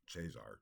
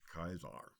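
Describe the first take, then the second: First: The word begins with a ch sound. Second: The word begins with a hard k sound. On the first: This is the church Latin pronunciation. "would be the uh, ecclesiastical Latin pronunciation" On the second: This is the classical Latin pronunciation. "in classical Latin, a C is pronounced as a hard C or like a K"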